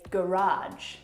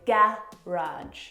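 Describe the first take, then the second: First: The stress is on the second syllable. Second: The stress is on the first syllable. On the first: "and you would say garage" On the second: "we would put the stress on the first syllable"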